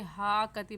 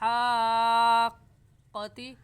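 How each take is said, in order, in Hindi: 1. दोहरी q को बिना रुके जल्दी से बोलते हैं। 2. दोहरी q को हल्के से रुककर बोलते हैं। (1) "पढ़ना गलत है" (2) "हाक़्क़ा पे हल्का सा ठहर जाएंगे क्योंकि तशदीद है... ऐसे पढ़ेंगे"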